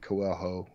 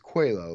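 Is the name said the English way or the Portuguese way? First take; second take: English; Portuguese. First: The name is said with an English-style pronunciation. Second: The name is said with a Portuguese-style pronunciation. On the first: "I always pronounced it Coelho also" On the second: "like the Portuguese name"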